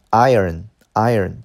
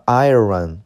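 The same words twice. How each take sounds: First: "iron" as eye-urn, said slowly; IRON with silent R. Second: "iron" with the R wrongly sounded. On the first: Teacher correcting the class's R, slow correct "iron". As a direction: say "iron" slowly without sounding the R. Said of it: "注意这个R不发音". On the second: Teacher warning class not to sound the R, mispronounced "iron". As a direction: say "iron" as eye-ron, R pronounced. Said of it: "注意这个R不发音啊，不要发成". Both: Shown as a demonstration.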